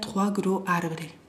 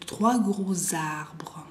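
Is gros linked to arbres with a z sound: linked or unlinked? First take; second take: unlinked; linked. First: No z sound links gros to arbres. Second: A z sound links gros to arbres. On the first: The speaker calls it wrong. "Si no, yo lo diría trois gros arbres. No" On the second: The speaker calls it right. "¿Se escucha la?"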